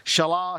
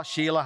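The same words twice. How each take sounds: First: Shelah as "shuh-LAH", short first vowel; one pronunciation. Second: Shelah as "SHE-lah", long ee first; alternative pronunciation. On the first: Preacher recalling the son's name, Shelah said "shuh-LAH". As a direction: say Shelah ending on a strong "LAH". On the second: Preacher giving the other reading, Shelah said "SHE-lah". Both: Shown as a demonstration. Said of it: "however you pronounce his name".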